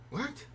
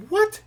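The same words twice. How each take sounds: First: Soft, high-pitched puzzled what; hushed disbelief. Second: Loud, very high-pitched shocked what; startled disbelief. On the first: Traveler spots a lookalike guitarist, hushed disbelief. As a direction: quietly act out a double take. Acted double take at lookalike. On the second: Fan sees his idol walk past, startled disbelief. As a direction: blurt it out in mock shock. Acted shock at seeing the singer. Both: Retold or imitated.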